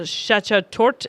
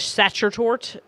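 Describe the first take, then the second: First: Sachertorte said slowly, carefully, rising; corrected pronunciation. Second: Sachertorte said hesitantly with a rising tune; unsure pronunciation. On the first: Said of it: "Fr-, Sachertorte". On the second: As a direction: try Sachertorte as a question. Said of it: "I don't know how to say it". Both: Shown as a demonstration.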